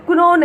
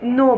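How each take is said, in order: First: The word starts with a k sound. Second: The word starts with an n sound. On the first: The speaker calls it wrong. "कुनो नहीं बोलना है" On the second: The speaker calls it right. "उसे भी नो बोलना है"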